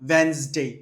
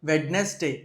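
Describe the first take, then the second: First: No d sound is heard before the n. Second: A d sound is heard before the n. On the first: The speaker calls it right. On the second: The speaker calls it wrong. "Both are wrong"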